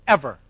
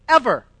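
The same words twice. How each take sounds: First: Said in the usual way. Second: Ever repeated higher and louder, falling hard; emphatic repeat. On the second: Shown as a demonstration. Preacher repeating Ever to the congregation, emphatic. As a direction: hammer Ever home the second time.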